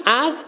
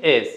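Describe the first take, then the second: First: Said in the usual way. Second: «از» with its opening a turned into e; accented mispronunciation. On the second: Shown as a demonstration. Coach showing how misplaced vowels make an accent, «از» said as "ez". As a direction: say «از» with a short e, as "ez".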